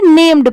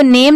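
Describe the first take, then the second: First: "नेम्ड" with a D closed onto the M; final D sounded. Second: "नेम" ending on M, no D; name without D. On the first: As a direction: end "नेम्ड" on a clear D. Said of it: "नेम्ड पढ़ेंगे". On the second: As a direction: stop "नेम" at the M sound. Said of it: "इसको नेम नहीं पढ़ेंगे". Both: Shown as a demonstration.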